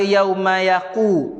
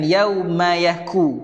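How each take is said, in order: First: It has a deep back-of-throat q sound. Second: It has a plain, further-forward k sound. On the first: The speaker calls it wrong. "Jangan baca yauma yaqu" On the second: The speaker calls it right. "bacalah dengan yauma yaku"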